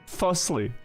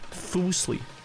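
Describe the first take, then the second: First: The first syllable does not sound like 'foos'. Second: The first syllable sounds like 'foos' in foosball. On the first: The speaker calls it wrong. "Am I pronouncing any name wrong" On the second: The speaker calls it right. "it's foos? Like foosball?"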